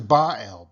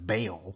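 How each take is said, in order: First: The name is split into Ba and al. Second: The name is said as one blended syllable. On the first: The speaker calls it right. "it really is Baal because the Ba is important" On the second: The speaker calls it wrong. "we sometimes, you know, pronounce it as Baal"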